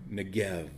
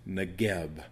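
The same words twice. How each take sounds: First: Negev, drawn out, ending in v; Negev with final v. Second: Negeb, closed on a hard b; Negeb with final b. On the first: Teacher offers the other form of the word, Negev ending in v. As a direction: stretch Negev and end on a v. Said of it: "that is Negeb". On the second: Teacher gives the Hebrew word for south, Negeb ending in b. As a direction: end Negeb on a b sound. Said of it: "or Negev". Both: Shown as a demonstration.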